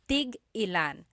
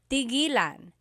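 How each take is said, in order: First: A glottal stop separates tig from ilan. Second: It runs smoothly with no glottal stop. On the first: It asks how many of each. "when there's a hyphen in it, you have to have that glottal stop" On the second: It means to stop. "When there's no hyphen, tigilan"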